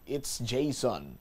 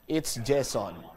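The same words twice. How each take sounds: First: It is said with an American-style accent. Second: It is said with a Visayan local accent. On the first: "slang ka kuno mag-pronounce ang ngalan" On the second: "mga Ilonggo kuno gani o kung uh, mga Bisaya magbasa"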